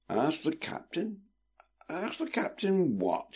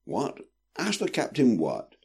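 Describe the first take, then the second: First: High, soft, slow and drowsy questioning; reply as if half asleep; sleepy. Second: Higher-pitched, mildly impatient question; confused and a touch testy; growing impatient. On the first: Brother roused by sister's request, replying sleepily. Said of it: "he replied sleepily". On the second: Brother only half aware of her meaning, impatient. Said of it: "growing increasingly impatient". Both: A narrator's reading.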